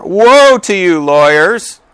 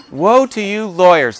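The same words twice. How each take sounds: First: Loud, high, drawn-out denunciation; declaimed woe. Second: High, lighter mock denunciation; playful relish. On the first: Acted. Jesus rebuking the lawyers, loudly declaimed. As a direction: proclaim it slowly, high and loud. Reads verse with force, then repeats. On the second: Preacher joking about his favourite verse, playful relish. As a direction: savour it playfully, pitched up without booming. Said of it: "that just sounds great".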